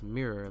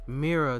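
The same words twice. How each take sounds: First: The word ends in an 'er' sound. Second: The word ends in an open 'ah' sound. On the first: The speaker says it this way. "I would pronounce mirror like it's like the way it's spelled" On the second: Some women from Philly say it this way. "they would pronounce mirror like mirror, so like M I R R A A. I mean A H"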